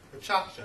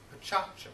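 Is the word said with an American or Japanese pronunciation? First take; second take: Japanese; Japanese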